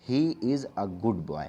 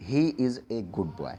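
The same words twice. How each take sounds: First: Slow model reading with a as "uh"; correct article A. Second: "a" read as the letter name "ay", sentence slowed down; slow demo of the error, a as "ay"; students' mistaken reading. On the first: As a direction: say a as "uh", not "ay", slowly. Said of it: "यहाँ पर हमें इसको आ पढ़ना है". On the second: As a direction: say a as a clear "ay", slowly. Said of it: "बहुत सारे student क्या पढ़ते हैं". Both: Shown as a demonstration.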